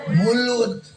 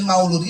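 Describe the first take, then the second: First: The first syllable has a plain u vowel. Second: The first syllable has the diphthong au. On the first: This is how Sundanese speakers say it. "bibir urang bibir sun Sunda nyebutkeun" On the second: This is the original Arabic form.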